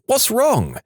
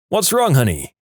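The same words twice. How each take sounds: First: Alarmed mock shout. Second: Higher-pitched, concerned call; mild mock shout. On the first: Wife startled by flailing husband, mock shouting. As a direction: call it out high in alarm. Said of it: "and I shouted". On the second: Husband waking to crying wife, mild shout. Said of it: "woke up and shouted". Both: A narrator's reading.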